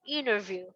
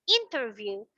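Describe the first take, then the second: First: The T after the N is dropped. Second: The T after the N is pronounced. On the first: "Without the t" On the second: "it's still correct"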